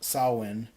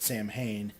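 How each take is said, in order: First: The name is given its Celtic pronunciation. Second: The name is said as 'Sam Hain'. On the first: "the Celtic pronunciation of it" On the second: "most people pronounce it Sam Hain"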